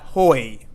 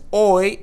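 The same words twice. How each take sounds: First: An h sound is heard before the vowel. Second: The word starts directly on the vowel. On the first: The speaker calls it wrong. "and not hoy" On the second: The speaker calls it right. "here the H is silent. Again, we're going to pronounce this as hoy"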